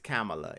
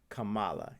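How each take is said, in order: First: The stress falls on the first syllable. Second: The stress falls on the second syllable. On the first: The speaker calls it right. "Her name is Kamala" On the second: The speaker calls it wrong. "It is not Kamala"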